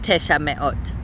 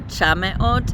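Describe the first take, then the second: First: The number keeps its full first vowel. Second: The number's first vowel is dropped. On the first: The speaker calls it right. "it is definitely supposed to be the full number" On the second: The speaker calls it wrong. "I sometimes get tempted to shorten the vowel"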